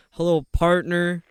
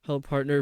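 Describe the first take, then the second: First: Louder, drawn-out cowboy drawl; cowboy accent. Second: Said in the usual way. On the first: Shown as a demonstration. Streamer rereading a chatter's greeting, hammed-up cowboy accent. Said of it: "read it like a cowboy". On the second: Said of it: "read it too fast".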